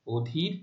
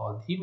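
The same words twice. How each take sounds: First: অধীর said slowly with the first অ rounded like ও; wrong pronunciation. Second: অধীর with an open first অ, as in standard অ; correct pronunciation. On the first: Teacher shows students the wrong অধীর, slow and deliberate. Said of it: "ভুল হবে". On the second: Teacher gives students the right অধীর, clear open vowel. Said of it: "এখানে অধীর উচ্চারণ করতে হবে". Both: Shown as a demonstration.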